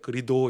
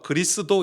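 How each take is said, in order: First: The middle 's' sound is left out. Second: The middle 's' sound is clearly pronounced.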